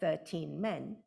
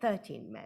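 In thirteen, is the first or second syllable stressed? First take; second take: second; first. First: Thirteen is stressed on its second syllable. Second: Thirteen is stressed on its first syllable. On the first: "thirteen is thirteen lexically" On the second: "the main stress has shifted"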